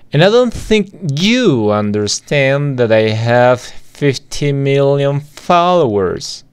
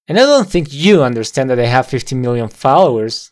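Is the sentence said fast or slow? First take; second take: slow; fast. First: The sentence is said slowly and softly. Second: The sentence is said quickly and run together. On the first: "Lo decimos todo lento y muy suave" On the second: "Ahora lo decimos como esta persona"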